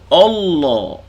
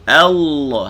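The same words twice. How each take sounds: First: The first vowel sounds thick, like o. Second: The first vowel sounds thin, like a. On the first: The speaker calls it wrong. "jangan sebut Allah" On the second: The speaker calls it right. "A, kita baca Allah"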